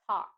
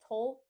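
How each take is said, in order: First: The L sound is dropped from the word. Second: The L sound is pronounced in the word. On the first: The speaker calls it right. "we drop the L sound" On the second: The speaker calls it wrong. "I've heard many students say tolk or talc"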